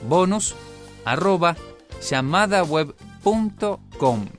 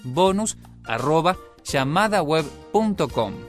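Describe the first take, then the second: First: It is said slowly. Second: It is said fast.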